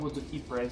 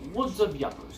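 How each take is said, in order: First: The last word sounds like 'eepr'. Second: The last word sounds like 'yuppers'. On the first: It is the actual pronunciation. "if you want to pronounce it that way" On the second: It is read the way it looks. "I pronounce it Woods of Yuppers because it looks like Yuppers"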